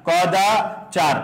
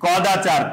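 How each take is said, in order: First: কদাচার slowly, pausing before চার; slow syllable demo. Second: Said in the usual way. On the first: Shown as a demonstration. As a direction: split কদাচার into কদা, a gap, then চার. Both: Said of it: "আমরা যদি বলি এইরকম".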